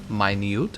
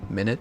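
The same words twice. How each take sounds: First: It is pronounced as the word meaning tiny. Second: It is pronounced as the unit-of-time word. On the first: It means a small amount. "or it could be pronounced this way" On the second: It names a duration of time. "a duration of time"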